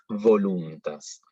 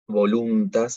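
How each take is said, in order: First: The v is made with teeth on lower lip. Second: The v is made with both lips, like b. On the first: The speaker calls it right. "es voluntas. La V tiene que ser con los dientes de arriba sobre el labio de abajo" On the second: The speaker calls it wrong. "no es voluntas"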